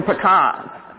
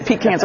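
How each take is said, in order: First: Pecans said slowly as puh-KAHNS; pecans as "puh-KAHNS", set against the other way; puh-KAHNS pronunciation. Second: Pecans said slowly as PEE-cans; Pecans as "PEE-cans", set against the other way; PEE-cans pronunciation. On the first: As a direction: land pecans on a broad "KAHNS". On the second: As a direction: open Pecans on a long "ee", ending like tin cans. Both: Shown as a demonstration. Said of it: "how one should pronounce something correctly".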